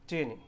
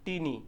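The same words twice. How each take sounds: First: টিনি with a light aspirated English t; correct pronunciation. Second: টিনি with a hard retroflex Bengali ট; টিনি said the Bengali way, tongue curled back on ট; wrong pronunciation. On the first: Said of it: "সেটা কেমন করে পড়তে হয়?". (টিনি হালকা হাওয়া মেশানো ইংরেজি t দিয়ে) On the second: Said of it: "আসলে যেটা ভুল প্রনাউন্সিয়েশন". (টিনি মূর্ধন্য ট দিয়ে, ভুল উচ্চারণ) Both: Shown as a demonstration.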